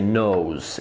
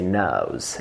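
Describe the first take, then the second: First: The vowel is an American-style O diphthong. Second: The vowel is a British-style diphthong, nearer A. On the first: "you don't say nose in British" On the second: "you say nose, nose. It's a little bit closer to A"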